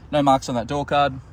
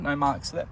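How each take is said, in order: First: Said in the usual way. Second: Talking through hiccups; words caught by a hiccup. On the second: Real, not acted. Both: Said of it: "Oh, sorry, got the hiccups".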